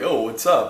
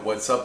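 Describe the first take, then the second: First: It sounds like a friendly, casual greeting. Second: It sounds irritated, like demanding what he wants.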